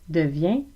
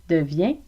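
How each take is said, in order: No difference in how they are said.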